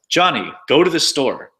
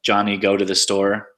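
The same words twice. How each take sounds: First: The intonation makes it sound like a command. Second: The pitch stays flat like a statement. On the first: It orders someone to act. "there's commands like" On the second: It reports a fact. "statements, which are just kind of flat"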